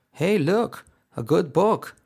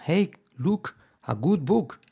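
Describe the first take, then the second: First: "look" and "good book" with short O-like vowels, higher pitch; lilting "Hey, look, a good book" with short vowels. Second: "look" and "good book" with long OO vowels; high-pitched "Hey, look, a good book" with wrong long U; bad pronunciation. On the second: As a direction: stretch "good book" into Spanish-style U sounds. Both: Shown as a demonstration. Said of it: "una mala pronunciación sería".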